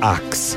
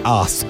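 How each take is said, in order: First: The word ends with a k then s sound. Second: The word ends with an s then k sound. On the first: The speaker calls it wrong. "not ax" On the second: The speaker calls it right.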